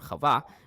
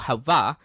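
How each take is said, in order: First: The word begins with a throaty kh sound. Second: The word begins with a plain h sound. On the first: The speaker calls it wrong. "not chav" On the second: The speaker calls it right. "it's hey"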